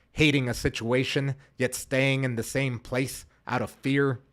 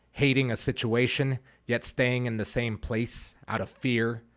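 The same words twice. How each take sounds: No difference in how they are said.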